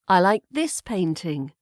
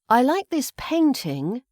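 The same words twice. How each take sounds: First: The word "this" carries the main stress. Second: The word "painting" carries the main stress. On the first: This particular painting is liked, not another one. "it's the this" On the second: The painting is liked rather than another art form. "meaning not the other art form, so perhaps not the sculpture"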